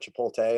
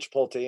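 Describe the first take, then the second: First: The word is said without a final tee sound. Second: The word is said like chip, pole, tee. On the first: "instead of Chipotle" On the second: "I say Chipotle"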